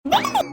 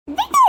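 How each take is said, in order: First: Yank free with the word; shrill protest. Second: Even higher, rising scream; louder protest. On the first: Dragged mother-in-law screams at her to let go. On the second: Dragged mother-in-law screams louder to be let go. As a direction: pull away harder. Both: Acted. Old woman struggling.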